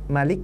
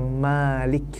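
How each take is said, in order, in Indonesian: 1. Vokal pertama dibaca pendek. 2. Vokal pertama dibaca panjang. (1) "apabila kita baca dengan tanpa mat" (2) "apabila dibaca panjang"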